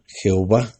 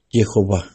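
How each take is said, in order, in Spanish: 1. El nombre empieza con un sonido J fuerte. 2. El nombre empieza con un sonido Y suave. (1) "en vez de la yud, le ponen una J. Por eso suena Jehová" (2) "Dios nos permite decir su nombre"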